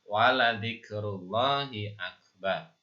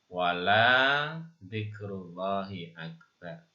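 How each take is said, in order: First: The vowel in 'la' is short. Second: The vowel in 'la' is drawn out long. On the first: The speaker calls it right. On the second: The speaker calls it wrong.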